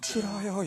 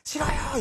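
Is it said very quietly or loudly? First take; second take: very quietly; loudly. First: It is said in a tiny, very quiet voice. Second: It is said in a loud, firm voice.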